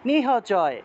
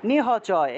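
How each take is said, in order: First: The h sound is pronounced fully and separately. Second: The h sound is pronounced fully and separately.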